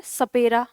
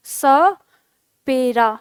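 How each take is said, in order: First: Said in the usual way. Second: सपेरा very slowly, स held apart from पेरा; teacher's stretched-out demo of सपेरा; slow syllable breakdown. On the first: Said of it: "अब हम कैसे बोल रहे हैं". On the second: Shown as a demonstration. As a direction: split सपेरा after a drawn-out dental स, then pause. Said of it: "इस तरह से हम लिख रहे हैं".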